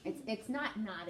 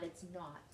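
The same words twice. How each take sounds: First: 'not' said like New York naughty; NY-style 'not not'; New York accent. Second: Said in the usual way. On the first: Shown as a demonstration. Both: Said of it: "bad New York accent showing through".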